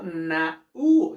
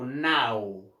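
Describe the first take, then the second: First: The two vowels are split into two syllables. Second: The two vowels join in one syllable. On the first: The speaker calls it wrong. "no digo na u" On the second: The speaker calls it right. "digo now"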